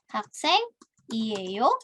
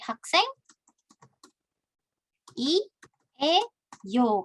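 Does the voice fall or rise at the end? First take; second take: rise; fall. First: The pitch rises at the end. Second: The pitch falls at the end. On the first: It asks a question. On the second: It makes a statement.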